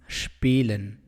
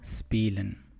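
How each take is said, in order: First: The word begins with an 'sh' sound. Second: The word begins with a plain 's' sound. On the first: The speaker calls it right. "It is spielen, pronounced with the ish sound" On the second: The speaker calls it wrong. "not spielen"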